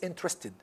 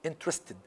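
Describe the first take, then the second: The two takes are said the same way.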